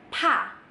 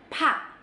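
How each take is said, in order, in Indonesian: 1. Konsonan ini mengeluarkan hembusan udara yang kuat. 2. Konsonan ini mengeluarkan hembusan udara yang kuat.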